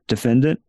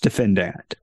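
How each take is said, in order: First: The word is said the common modern way. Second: The word is said the older courtroom way. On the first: This is the pronunciation dictionaries now give. "maybe every one of them says pronounce it defendant" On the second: This is how judges and prosecutors used to say it. "It was pronounced defendant. And that's the way judges did it"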